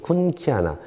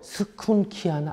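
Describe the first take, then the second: First: The name begins directly with a k sound. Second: The name begins with an audible s sound. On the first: "이 S가 묵음인 것 같아요" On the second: "에스 씨 에이치 유 엔 케이 이 에이 엔 에이면 이거 스쿤키아나 아니에요?"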